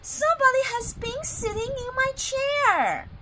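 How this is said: It is said in a medium-sized voice.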